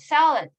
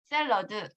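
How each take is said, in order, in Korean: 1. 영어식 발음으로 말했어요. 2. 한국식 발음으로 말했어요. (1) "salad 이렇게 얘기를 하는데" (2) "한국식 발음은 샐러드"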